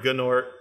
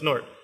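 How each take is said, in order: First: A G sound is pronounced before 'nort'. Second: The G is silent; it starts with 'n'. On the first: The speaker calls it wrong. "don't don't say G Nort" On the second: The speaker calls it right. "It's a silent G, like Nat"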